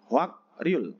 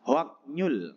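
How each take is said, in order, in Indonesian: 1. Dibaca dengan k lalu r di tengah. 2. Dibaca dengan k lalu n di tengah. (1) "Hwak Ryul ya tulisannya" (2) "Yang pertama sebenarnya bacanya"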